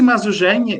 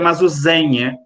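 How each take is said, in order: First: The middle consonant is a 'zh' sound. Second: The middle consonant is a plain 'z' sound.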